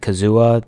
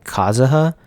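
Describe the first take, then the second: First: The name is said in an English style. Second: The name is said in a Japanese style. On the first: This is how most people outside Japan say it. "everyone else says it Kazuha" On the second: This is how it is said in Japan. "they say in Japan it's more like Kazuha"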